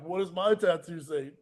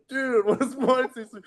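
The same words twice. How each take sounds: First: "What does my tattoo say?" said flat and soft; just mutter the movie quote; quoted line, plain. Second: "Dude, what does my tattoo say?" pitched way up; high mock quote. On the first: Retold or imitated. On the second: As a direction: squeak the movie line up high. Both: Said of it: "like, this, like".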